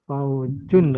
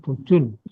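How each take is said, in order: First: The first syllable has the diphthong 'au'. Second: The first syllable has a plain 'u' vowel. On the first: The speaker calls it right. "Faujun tadi bacanya Bu" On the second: The speaker calls it wrong. "Bukan Fujun"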